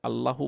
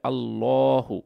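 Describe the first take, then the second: First: The vowel after the double L is kept short. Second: The vowel after the double L is drawn out. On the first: The speaker calls it wrong. "আল্লাহু বললে হবে না" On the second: The speaker calls it right. "একটু টান দিয়ে পড়তে হবে"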